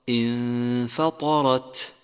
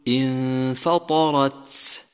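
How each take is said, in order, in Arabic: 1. التاء الأخيرة نظيفة بلا حفيف. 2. في التاء الأخيرة صفير يشبه السين. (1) "والصواب انفطرت" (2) "يجب الحذر من إخراج صفير عند همسها حتى لا تصير سينا، فلا تقل انفطرت"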